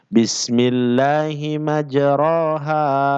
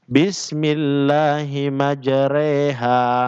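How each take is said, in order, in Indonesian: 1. Vokal setelah r adalah a biasa. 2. Vokal setelah r dibengkokkan ke arah e. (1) "yang sebenarnya bacaannya" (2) "bengkok cara membacanya seperti ini"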